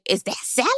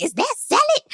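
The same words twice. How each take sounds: First: Said in the usual way. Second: Much higher, clueless put-on voice; high mock Eddie. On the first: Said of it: "the men are like". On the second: Recapper mimics clueless husband at dinner, high mock voice. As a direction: play him as a high, baffled man. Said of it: "'Cause he was like".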